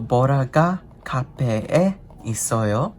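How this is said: The pitch rises at the end. It asks whether Bora is at the cafe. "Is Bora at the cafe? With the tone going up"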